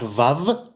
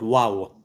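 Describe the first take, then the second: First: The name begins with a V sound. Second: The name begins with a W sound. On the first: The speaker calls it wrong. "not Vav" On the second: The speaker calls it right. "but Wow"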